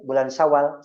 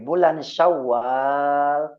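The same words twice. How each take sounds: First: The vowel after the w is short. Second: The vowel after the w is long. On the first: The speaker calls it wrong. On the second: The speaker calls it right. "wawunya harus panjang"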